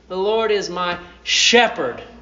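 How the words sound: The word shepherd is stressed.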